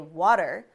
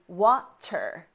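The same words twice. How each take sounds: First: The middle consonant is a quick soft D. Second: The middle consonant is a crisp T. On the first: "It takes way less energy for our lips, our tongue, our throat, and our mouth to say water" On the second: "as opposed to water"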